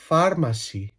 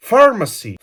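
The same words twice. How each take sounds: First: PHARMACY softer, with a rolled Greek r; mock Greek accent. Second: PHARMACY higher, in a fluent English accent; authentic English accent. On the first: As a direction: pronounce "Pharmacy" as a Greek would. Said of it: "με ελληνική προφορά". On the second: Shown as a demonstration. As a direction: say "Pharmacy" like a native English speaker. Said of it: "μιλάω με αυτή την προφορά".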